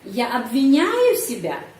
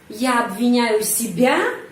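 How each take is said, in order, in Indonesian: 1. Tekanan pertanyaan ada pada kata kerja. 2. Tekanan pertanyaan ada pada kata terakhir. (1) "intonasi bisa pak di sini pada kata menyalahkan, обвиняю" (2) "diri sendiri di sini penekanan intonasi"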